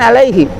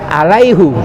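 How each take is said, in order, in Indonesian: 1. Kata ini berakhir dengan vokal 'i'. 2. Kata ini berakhir dengan vokal 'u'. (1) "bukan alaihi" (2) "Waman aufa bima ahada alaihu"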